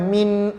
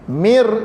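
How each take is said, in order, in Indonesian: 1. N di akhir diucapkan dengan jelas. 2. N menyatu dengan r yang mengikutinya. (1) "jangan min"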